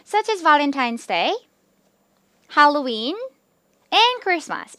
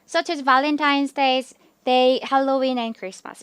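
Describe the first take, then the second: First: Each list item is separated by a clear pause. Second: The list items are run together quickly. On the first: The speaker calls it right. "이렇게 정확하게 끊어주시는 게 가장 듣기가 좋습니다" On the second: The speaker calls it wrong. "이렇게 너무 빠르게 붙여서 읽는 것보다"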